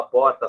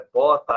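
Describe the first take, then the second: First: Said in the usual way. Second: Second PORTA said as "pota", no R; R omitted. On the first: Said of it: "Então, a porta sai". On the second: Retold or imitated. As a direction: drop the mid-word R: "pota" for porta. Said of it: "mas não aparece no meio". ("porta" dita "pota", sem o R)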